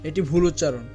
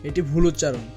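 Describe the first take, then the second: No difference in how they are said.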